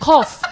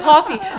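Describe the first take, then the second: First: The word is said without its final syllable. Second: The word is said with its final syllable. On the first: "I'm gonna go make the cough" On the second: "it was never the coffee"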